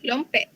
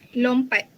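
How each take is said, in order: First: It is said in Negeri Sembilan dialect pronunciation. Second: It is said in Standard Malay pronunciation. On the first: "Dalam dialek Negeri Sembilan" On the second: "bahasa Melayu Standard"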